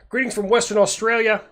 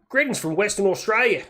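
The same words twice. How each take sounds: First: It is said in his normal American accent. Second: It is said in a put-on Australian accent.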